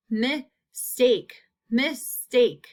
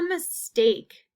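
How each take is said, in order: First: Mistake in two separate beats; split into syllables. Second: Said in the usual way. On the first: Shown as a demonstration. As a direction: pause between mis and take in mistake. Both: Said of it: "long A is in that second half".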